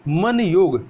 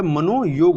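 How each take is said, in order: First: मन योग with no o after man; wrong form. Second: मनोयोग with long o linking the parts; correct form. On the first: Teacher rejects the split form, मन योग without joining o. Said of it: "नहीं होता है". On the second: Teacher corrects for learners, मनोयोग with "no" in the middle. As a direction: say मनोयोग slowly as "mano-yog". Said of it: "मनोयोग होता है". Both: Shown as a demonstration.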